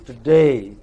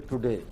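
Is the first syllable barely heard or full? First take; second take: barely heard; full. First: The first syllable is short and barely heard. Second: The first syllable is said clearly and fully. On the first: The speaker calls it right. "It is today" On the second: The speaker calls it wrong. "you don't say today"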